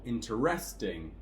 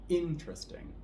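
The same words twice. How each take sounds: First: The stress is on the third syllable. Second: The stress is on the first syllable. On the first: The speaker calls it wrong. "on the third one" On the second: The speaker calls it right. "we're going to stress the first syllable here"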